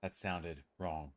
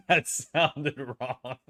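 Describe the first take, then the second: First: Said in the usual way. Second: Louder, laughing through it. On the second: Real, not acted. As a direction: crack up while saying it.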